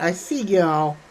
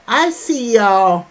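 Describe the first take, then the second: First: Said in the usual way. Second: Louder and slow, stretching "I see y'all"; a warm shout-out to the chat, drawn out; emphatic greeting. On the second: Real, not acted. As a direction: call "I see y'all" out slowly and louder, leaning on "I".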